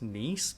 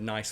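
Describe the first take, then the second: First: It is said like the French city name. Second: It is said like the English word nice. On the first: The name comes from the region in France. "named after the region in France, which is pronounced Nice" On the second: The name comes from the word printed on it. "as a kid, I pronounced it nice because they've got the word nice right on there"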